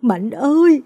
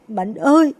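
First: Loud, higher grieving cry; mother wails her son's name at the tree; anguished wail. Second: Higher, louder grieving cry; mother wails to her son again; wailing call. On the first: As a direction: call out to the dead son in agony. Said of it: "gào lên đau đớn". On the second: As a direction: call the dead son's name in anguish. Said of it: "gào lên". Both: Acted.

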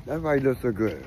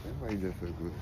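First: Repeated louder so she hears. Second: Said softly, half to herself; a soft aside, barely heard; quiet. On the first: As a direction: say it again, up and clear. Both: Real, not acted.

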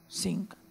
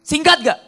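First: Quiet self-answer; answering softly. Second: Raised questioning singkat; preacher quizzing the congregation; asking. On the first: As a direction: drop the voice and answer Singkat. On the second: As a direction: ask it up, singkat gak, to the crowd. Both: Shown as a demonstration.

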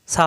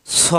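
First: সা with a light s and open a; thin out সা to an open a; mistaken thin letter. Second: স thick, with a rounded o vowel; heavy letter. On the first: Teacher warning learners against this reading, thin sound. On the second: Teacher showing learners the thick letter, heavy sound. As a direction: fill the mouth on স. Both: Shown as a demonstration. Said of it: "সা হবে না কিন্তু".

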